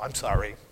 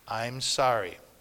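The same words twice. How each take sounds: First: The apology sounds grudging and insincere. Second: The apology sounds genuine and sincere.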